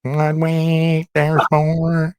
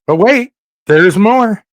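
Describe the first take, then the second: First: Drawn-out, level-toned ad tagline; lilting mock commercial voice; Grocery Outlet ad. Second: High, loud teaser with a long WAIT; slow, punched-up catchphrase; mock infomercial pitch. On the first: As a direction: stretch each word like a store slogan. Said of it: "Like the grocery outlet". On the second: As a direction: sell it like a TV pitchman.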